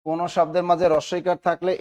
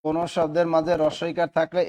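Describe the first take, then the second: No difference in how they are said.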